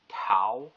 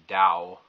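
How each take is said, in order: First: It begins with a clear T sound. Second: It begins with a clear D sound. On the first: "call it Tao with a T" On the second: "Tao with a D"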